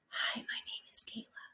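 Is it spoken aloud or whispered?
whispered. It is spoken in a whisper.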